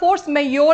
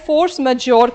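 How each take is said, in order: First: The J sound in majeure is silent. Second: The J sound in majeure is pronounced. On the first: "actually बोलते हैं जे काफी बार silent आता है" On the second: "कभी कभी कोई जे भी बोल देता है"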